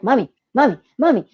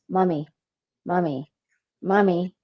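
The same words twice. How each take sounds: First: It is said louder and more insistently. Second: It is said at a normal, quieter volume.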